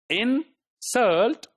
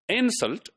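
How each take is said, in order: First: The stress is on the second syllable. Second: The stress is on the first syllable. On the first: It is used as a verb. "when the stress is on the second syllable" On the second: It is used as a noun. "now the the uh, stress is on the first syllable"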